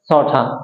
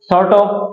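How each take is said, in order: First: The words are reduced and blended into one. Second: Both words are said fully and separately.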